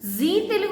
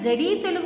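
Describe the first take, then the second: First: The first word is said as a plain zee. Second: The first word is said as zed-ee. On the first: The speaker calls it right. "జీ Telugu అంటారు" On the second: The speaker calls it wrong. "జెడీ Telugu అనం కదా"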